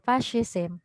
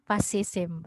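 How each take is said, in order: First: The middle consonant is a strong sh sound. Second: The middle consonant is a plain s sound. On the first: "there's this strong S H sound" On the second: "very Tagalog"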